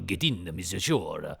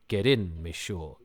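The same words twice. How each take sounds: First: It is said in an Italian-sounding accent. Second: It is said in a plain, neutral accent.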